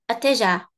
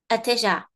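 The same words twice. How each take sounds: First: The first vowel is said faintly and quickly. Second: The first vowel is said faintly and quickly.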